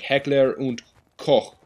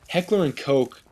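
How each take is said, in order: First: The name is said with German pronunciation. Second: The name is said with English pronunciation. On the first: The speaker calls it right. "it should be pronounced Heckler und Koch" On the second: The speaker calls it wrong. "I feel like that's pronounced incorrectly"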